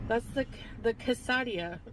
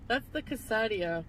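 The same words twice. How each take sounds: First: Quesadilla said as "kuh-sah-DEE-uh" with a broad a; "quesadilla" fumbled, kuh-sah-dee-uh, then stopped; mispronounced quesadilla. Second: Quesadilla said as "kuh-SAA-dee-uh" with a flat a; "quesadilla" said carefully as kuh-saa-dee-uh; corrected quesadilla. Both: Shown as a demonstration. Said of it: "I wanna say quesadilla".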